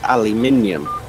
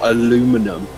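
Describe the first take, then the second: First: The word is said the British way. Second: The word is said the American way. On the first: This is the speaker's own way of saying it. The speaker calls it right. "It's aluminium" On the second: This is how the other side says it. The speaker calls it wrong. "You guys say"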